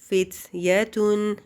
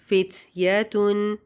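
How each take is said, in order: Both takes have the same delivery.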